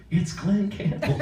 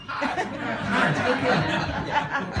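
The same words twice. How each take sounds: First: High, drawn-out imitation, awestruck; stunned phone-answerer, high and stretched out; starstruck mother-in-law. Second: Very high, drawn-out singer caricature; hammed-up high mimicry, slowing down. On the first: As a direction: mimic her, slow and high, about to hit the floor. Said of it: "my ex-mother-in-law answers the phone". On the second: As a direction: stretch out a silly high phone greeting. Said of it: "I do not talk like that".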